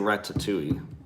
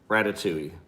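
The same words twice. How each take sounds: First: The T sound is pronounced clearly and strongly. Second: The T sound is pronounced softly and lightly.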